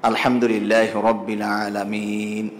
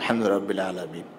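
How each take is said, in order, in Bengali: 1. এই বাক্যটি ধীরে ধীরে, দীর্ঘ স্বরে পড়া হচ্ছে। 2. এই বাক্যটি দ্রুত ও সংক্ষেপে পড়া হচ্ছে। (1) "উনি এটি টেনে পড়ছেন" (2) "আপনি সংক্ষেপে পড়ে ফেলবেন"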